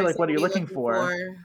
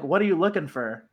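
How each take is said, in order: First: The last word is a full for. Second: The last word is reduced to fur. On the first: The speaker calls it right. "I say" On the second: The speaker calls it wrong. "I don't say, like"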